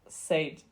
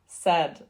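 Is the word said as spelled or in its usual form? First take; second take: as spelled; usual. First: The word is said closely following its spelling. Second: The word is said in its usual form. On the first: The speaker calls it wrong. "not said, because I always said said" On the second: The speaker calls it right. "it's said"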